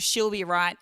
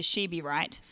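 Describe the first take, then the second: First: She'll be right, said with the full "she'll"; Australian she'll be right, clear "she'll"; Aussie she'll be right. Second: She be right, with "she" and no "'ll"; Americanized she be right. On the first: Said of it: "the only thing is with the exception of". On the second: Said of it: "has turned to". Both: Shown as a demonstration.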